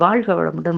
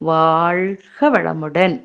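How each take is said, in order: First: It is said quickly and rushed together. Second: It is said slowly, clearly and firmly. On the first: The speaker calls it wrong. "அப்படி அவசரமா" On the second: The speaker calls it right. "நல்ல அழுத்தமா"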